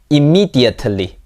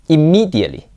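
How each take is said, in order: First: The t is fully pronounced. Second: The t is replaced by a glottal stop.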